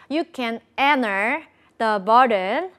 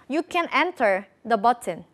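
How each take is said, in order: First: It is spoken slowly with each word said clearly. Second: It is spoken quickly with a put-on fluent flow. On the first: The speaker calls it right. "이렇게 하면 차라리 난데" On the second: The speaker calls it wrong. "근데 어떻게 하냐면"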